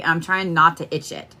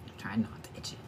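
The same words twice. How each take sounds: First: Said in the usual way. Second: Breathy near-silent whisper; muttered to herself, much softer, as a whisper. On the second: Real, not acted. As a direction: whisper it to yourself. Repeats line as whisper.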